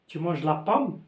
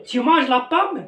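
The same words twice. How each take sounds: First: Tu manges la pomme said flat with the voice falling on pomme; falling declarative intonation on tu manges la pomme; flat statement tune. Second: Tu manges la pomme slow and higher, pitch lifting as a question; questioning intonation on tu manges la pomme; rising question tune. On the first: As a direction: state it plainly, no rise. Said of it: "c'est une phrase déclarative". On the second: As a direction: ask it, voice climbing at the end. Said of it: "c'est une question". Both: Shown as a demonstration.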